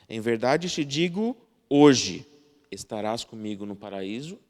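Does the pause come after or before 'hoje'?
after. The pause comes right after the word hoje. The speaker is saying now that this will happen. "Uma diz, eu estou te dizendo agora que isto vai acontecer"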